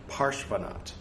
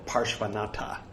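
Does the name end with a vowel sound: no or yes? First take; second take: no; yes. First: The name ends without a final vowel sound. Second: The name ends with an added vowel sound. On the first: It is how native speakers say it. The speaker calls it right. "They don't pronounce the A's" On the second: It marks the speaker as an unsophisticated outsider. The speaker calls it wrong. "if you want to sound like a rube"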